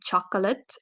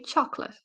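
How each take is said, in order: First: The second O is fully pronounced. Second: The second O is reduced. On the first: The speaker calls it wrong. "we don't say chocolate" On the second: The speaker calls it right. "the second O, is uh, reduced"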